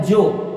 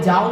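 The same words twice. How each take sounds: First: "जो" run into one syllable; village pronunciation. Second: "जाओ" with a full long aa, then o; standard pronunciation. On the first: Retold or imitated. Teacher imitating how villagers say go, village pronunciation. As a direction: say "जो" rustic style, contracted from jaa-o. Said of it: "गांव देहात में". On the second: Shown as a demonstration. Teacher giving the word villagers don't use, standard pronunciation. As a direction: say "जाओ" in two clear vowels, jaa-o. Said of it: "नहीं कोई बोलता है".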